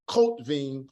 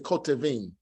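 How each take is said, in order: First: The word has two syllables, no vowel after t. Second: The word has three syllables, a vowel after t. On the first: The speaker calls it wrong. "instead of saying Kotvim" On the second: The speaker calls it right. "we say Kotevim"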